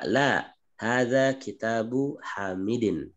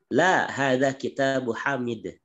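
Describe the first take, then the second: First: The ending of the last word is pronounced. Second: The ending of the last word is dropped. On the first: This is how it is read in study. "ketika kita belajar, ketika kita membaca" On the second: This is how it is said in conversation. "itu sudah muhadasah"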